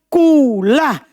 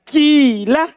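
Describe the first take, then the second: First: The first vowel is a clear u sound. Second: The first vowel is a clear i sound. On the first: "karena wau cocok dengan doma jadi doma" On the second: "kasro ini diubah jadi ya"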